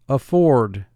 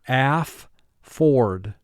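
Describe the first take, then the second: First: The word is said smoothly as one unit. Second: The word is split into two separate syllables. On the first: This is how it is said in conversation. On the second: This is a pronunciation used to help spelling.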